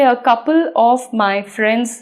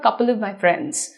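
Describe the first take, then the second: First: The phrase is said slowly and carefully. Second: The phrase is said quickly and run together. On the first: "अगर हम धीरे धीरे बोलेंगे" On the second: "जल्दी से बोलेंगे तो कैसा साउंड करेगा"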